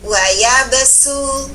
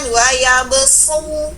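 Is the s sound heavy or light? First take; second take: light; heavy. First: The s sound is light and thin. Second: The s sound is heavy and emphatic. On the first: The speaker calls it right. "tapi wa yabsu. Tipis" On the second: The speaker calls it wrong. "tidak dibunyikan wa yabsu"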